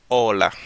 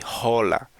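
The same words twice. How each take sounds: First: Hola starting on a clean O, no H; silent H in hola. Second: Hola with an English H as in hello; H pronounced in hola. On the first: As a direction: say hola as "ola". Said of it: "it doesn't exist". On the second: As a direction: wrongly voice the H that opens hola. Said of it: "because in English we say hello". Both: Shown as a demonstration.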